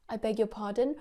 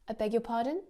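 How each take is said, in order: First: It sounds like a genuine question, rising at the end. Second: The same.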